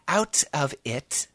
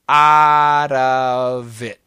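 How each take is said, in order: First: Each word is pronounced separately and crisply. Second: The words run together in one smooth chunk. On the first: The speaker calls it wrong. "But we don't say out of it. That's too British" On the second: The speaker calls it right. "In America, we just say"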